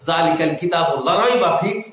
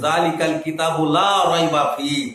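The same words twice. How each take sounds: First: The vowel in 'la' is cut short. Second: The vowel in 'la' is held long. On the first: The book is full of doubt. The speaker calls it wrong. "আলিফটাকে হযফ করে দিবেন" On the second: The book contains no doubt. The speaker calls it right. "আল্লাহ এখানে বলতে চাইছেন"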